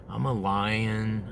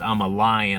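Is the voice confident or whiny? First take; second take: whiny; confident. First: It is said in a whiny voice. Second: It is said in a confident voice.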